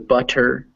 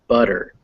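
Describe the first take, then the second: First: The middle sound is a crisp T. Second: The middle sound is a soft D-like tap. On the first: "all these words are written with T's, so they look like they're butter" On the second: "you say them actually with more of a D sound"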